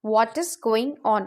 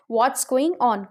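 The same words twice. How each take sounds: First: Said in the usual way. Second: "What's" run together as one syllable; contracted What's. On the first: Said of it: "हम इसे short में बोल सकते हैं". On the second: Shown as a demonstration. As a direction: say "What's" short, merging What and is. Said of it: "contraction में हम इसे बोल सकते हैं". ("What's" को छोटा करके एक साथ बोलें)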